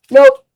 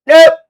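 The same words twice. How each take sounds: First: High loud nope; emphatic nope. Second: Loud high nope; emphatic nope. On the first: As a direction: shoot it down sharply. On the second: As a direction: reject it with a punch. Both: Real, not acted. Emphatic refusal of a bet.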